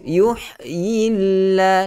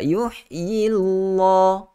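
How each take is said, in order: First: The L sound is light and thin. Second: The L sound is heavy and thick. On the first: The speaker calls it right. "itu nipis" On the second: The speaker calls it wrong. "Itu tebal. Itu tidak sesuai"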